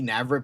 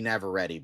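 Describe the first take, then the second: First: The ending rhymes with cigarette. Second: The ending does not rhyme with cigarette. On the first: The speaker calls it wrong. "I keep calling her Indy Navarrete ... I pronounce her name like cigarette" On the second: The speaker calls it right. "but it's Indy Navarrete"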